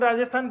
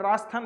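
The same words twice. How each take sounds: First: The 'j' sound is clearly said in the word. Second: The 'j' sound is left out of the word. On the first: This is the full standard form of the name. "पर हम राजस्थान पूरा बोलेंगे।" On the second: This is how some people from that region say it. "जे silent होता है।"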